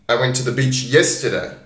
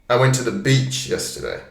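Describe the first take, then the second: First: The stress falls on the word yesterday. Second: The stress falls on the word beach. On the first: It happened yesterday, not on another day. "not three days ago, not last week, yesterday" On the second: It was the beach, not another place. "I didn't go to the park. I didn't go to the city. I went to the beach"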